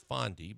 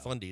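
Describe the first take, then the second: First: The first vowel sounds like 'fond'. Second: The first vowel sounds like 'fun'. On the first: The speaker calls it right. "It's Fondy" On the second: The speaker calls it wrong. "it's not Fundy"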